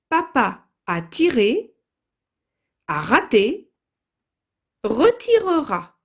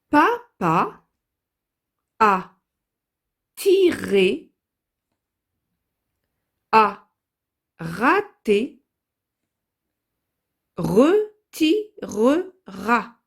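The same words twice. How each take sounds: First: The sentence is read at a faster pace. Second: The sentence is read at a slow pace.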